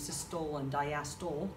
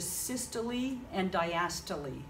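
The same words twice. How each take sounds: First: The words are pronounced the way they're spelled. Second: The words are not pronounced the way they're spelled. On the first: The speaker calls it wrong. "because that's phonetically how it looks" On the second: The speaker calls it right. "that is how you pronounce it"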